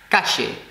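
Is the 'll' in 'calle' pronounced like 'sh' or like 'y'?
sh. The ll sounds like a sh sound. This is how speakers in Argentina say it. "in Argentinian Spanish, it's like a she sound"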